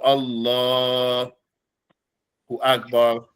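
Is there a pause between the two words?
pause. There is a pause between the two words. The speaker calls it wrong. "not to pause for a long or short while between these two words"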